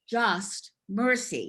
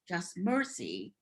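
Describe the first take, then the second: First: The stress falls on the word just. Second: The stress falls on the word mercy.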